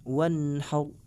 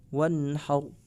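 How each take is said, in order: No difference in how they are said.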